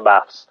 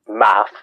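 First: The word ends with an added s sound. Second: The word ends without an s sound. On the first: This is the usual British form. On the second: This is the usual American form.

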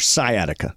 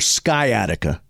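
First: The C in the word is silent. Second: The C in the word is sounded. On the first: The speaker calls it right. "It is your sciatica. Though it's a silent C" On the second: The speaker calls it wrong. "It is not your sciatica"

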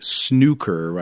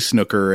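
First: The word has a British pronunciation. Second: The word has an American pronunciation. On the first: "I think that's the British, the common British pronunciation" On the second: "But we're U.S., so we're going to say Snooker"

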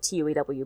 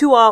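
First: It is spoken as four separate letters. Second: It is pronounced as one short word. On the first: "I would usually just call it T-U-E-W" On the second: "it's Tua"

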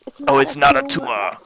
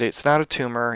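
First: It is said in a put-on impression voice. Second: It is said in the speaker's normal voice. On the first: The speaker calls it right. "With Arnold Schwarzenegger voice" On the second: The speaker calls it wrong. "you didn't say it the way it's supposed to be said"

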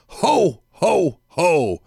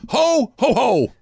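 First: Each ho is said slowly and distinctly. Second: The last two hos are jammed together.

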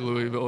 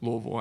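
First: The name is said the outsider way. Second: The name is said the local way. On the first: This is how others usually say the name. "but I'll say Louisville" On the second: This is how the name really is said. "Louisville actually"

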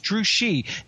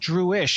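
First: The name ends with a 'shee' sound. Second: The name ends with an 'ish' sound. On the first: The speaker calls it right. "It's Drewshi" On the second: The speaker calls it wrong. "they pronounce it Drewish"

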